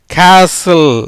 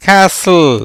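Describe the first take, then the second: First: கேசல் said firmly, t silent, as kasil; pronunciation demo. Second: கேசல் repeated as kasl, t silent; pronunciation demo. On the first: Teacher models கேசல் to students, t dropped. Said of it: "எப்படி வருது?". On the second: Teacher repeats கேசல் for students, t silent. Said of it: "எப்படி?". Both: Shown as a demonstration.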